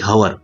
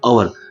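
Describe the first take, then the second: First: The word starts with an audible h sound. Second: The word starts with a vowel, no h. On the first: The speaker calls it wrong. "ना कि हवर" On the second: The speaker calls it right. "इसको पढ़ा जाता है अवर"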